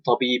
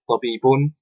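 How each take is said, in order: First: The word ends on its final consonant. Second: The word ends with an added 'un' syllable. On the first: This is the everyday spoken form. "as we would say in normal speaking Arabic" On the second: The grammatical case ending is shown. "I pronounce the things here in this class as tabibun"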